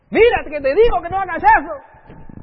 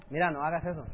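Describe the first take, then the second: First: Higher and louder, yelling the warning; angry parental shout. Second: Said in the usual way. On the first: Retold or imitated. Parent shouting at a child who won't listen, angry yell. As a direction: lose patience and shout at the child.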